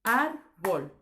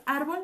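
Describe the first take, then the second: First: "árbol" in two loud beats, ár - bol; división silábica correcta. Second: "árbol" broken as ár - bo - lll; división incorrecta. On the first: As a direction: keep the l on bol: "árbol" as ár, pause, bol. ("árbol" separado en ár - bol) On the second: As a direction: detach the final l of "árbol" after a pause. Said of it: "árbol no es". ("árbol" partido en ár - bo - l) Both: Shown as a demonstration.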